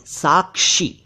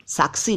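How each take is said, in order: First: साक्षी higher as "saak-shi"; correct pronunciation. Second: साक्षी said as "saak-si"; plain s for sh in साक्षी; mispronounced साक्षी. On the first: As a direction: clear k then sh in साक्षी. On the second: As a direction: turn साक्षी into साक्सी. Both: Shown as a demonstration. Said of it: "साक्षी नहीं".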